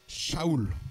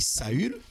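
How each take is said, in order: First: It starts with a sh sound, then 'a-oul'. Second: It starts with s, then 'a' and French 'u'. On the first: This is the original Hebrew name. "son vrai nom, c'est. Euh, c'est. Euh, Shaoul" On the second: This is the usual French form. "en français, le U, on prononce U... c'est pourquoi on dit Saül"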